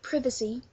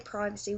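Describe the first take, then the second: First: It is said in a British accent. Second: It is said in an American accent. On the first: "we say privacy" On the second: "Americans say privacy. Uh, we don't say privacy"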